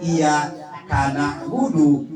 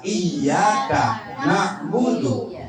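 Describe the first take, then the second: First: Iya karena budu as iya, kana'budu; wrong word break. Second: Iya karena budu as iyyaka, na'budu; slow, doubled y, break after ka; correct word break. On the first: Teacher repeats the faulty reading, wrong word break. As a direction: break after iya, ka runs into na. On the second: Teacher repeats the right reading, correct word break. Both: Shown as a demonstration.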